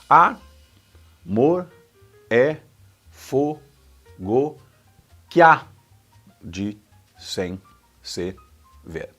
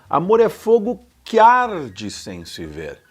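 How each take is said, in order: First: Each syllable is said separately. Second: Que and arde run together smoothly.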